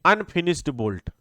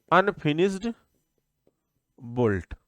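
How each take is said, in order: First: Said in the usual way. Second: "unfinished" dictated with a rise, a long pause, then "bolt" dropped low and soft; teacher pausing between "unfinished" and "bolt" for note-taking; slow dictation. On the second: Shown as a demonstration. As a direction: spell the term out word by word so students can write it. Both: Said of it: "इसमें लिखिए".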